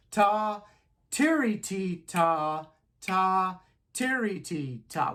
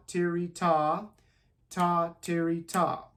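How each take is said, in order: First: Ta, tiri, ti, ta chanted loud in time; rhythm syllables. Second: Tiri, ta spoken in strict time; rhythm syllables. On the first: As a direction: say the rhythm clearly on the beat. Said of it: "I'm gonna say it again". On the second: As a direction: chant the rhythm to the beat. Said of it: "one twenty sounds like". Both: Shown as a demonstration.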